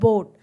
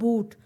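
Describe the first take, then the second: First: The vowel is an 'oh' sound. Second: The vowel is a long 'oo' sound. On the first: This is the modern pronunciation. "आजकल की modern English के अंदर उसको किया जाता है बोट" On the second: This is the older pronunciation. "Middle English के अंदर एक वर्ड प्रोनाउंस किया जाता था बूट"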